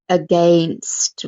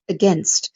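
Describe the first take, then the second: First: The middle vowel is a full ay sound. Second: The middle vowel is a short uh sound. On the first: The speaker calls it wrong. "the A I gives us the sound of A, but we don't say against" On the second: The speaker calls it right. "We just go against. So that's another schwa sound"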